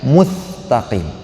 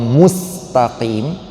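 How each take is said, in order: First: The word is said with a t sound. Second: The word is said with an s sound. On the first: The speaker calls it wrong. "Sin jadi ta" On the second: The speaker calls it right. "baca ihdinas siratal mustaqim"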